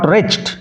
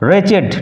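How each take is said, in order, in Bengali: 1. "-ed" শেষাংশটি মিশে গিয়ে এক সিলেবল হয়। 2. "-ed" শেষাংশটি একটি আলাদা সিলেবল। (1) "নট" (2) "উচ্চারণ লক্ষ্য করো"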